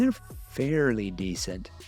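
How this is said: It sounds hesitant and doubtful, holding something back. It hints at something bad left unsaid. "hear my tone"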